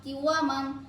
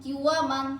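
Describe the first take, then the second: The two takes are said the same way.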